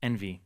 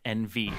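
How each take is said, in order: First: The name is said as one word. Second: The name is said as two letters. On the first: The speaker calls it right. "it is Envy" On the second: The speaker calls it wrong. "not N V"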